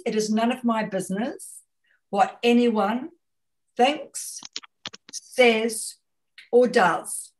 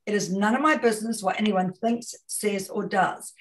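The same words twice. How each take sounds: First: "what anyone thinks, says, or does" with a long pause before each of "thinks", "says" and "does"; phrase spelled out slowly. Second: Said in the usual way. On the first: Shown as a demonstration. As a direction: set down "thinks", "says", "or does" one at a time for weight. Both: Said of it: "there's a lovely phrase".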